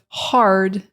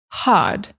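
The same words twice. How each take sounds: First: The R sound after the vowel is pronounced. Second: The R sound after the vowel is dropped. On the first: "instead of hard" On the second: "forgive my British impersonation"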